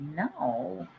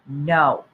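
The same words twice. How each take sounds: First: It is said curiously. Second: It is said firmly, with conviction. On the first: "say no with curiosity" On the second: "say no with conviction"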